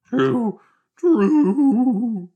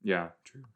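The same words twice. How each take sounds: First: Squeaky, much higher and louder cartoon dog voice; Scooby-Doo voice. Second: Said in the usual way. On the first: Real, not acted. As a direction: yelp the word like Scooby-Doo. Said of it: "It sounds like Scooby-Doo". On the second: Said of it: "What is wrong with my voice?".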